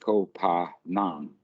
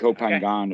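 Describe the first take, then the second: First: The island name is said the local Thai way. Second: The island name is said the Western way. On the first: The speaker calls it right. "people pronounce it that way because that's how it's written" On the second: The speaker calls it wrong. "the Westerners always uh, pronounce it Kopangan. ... Kopangan is wrong"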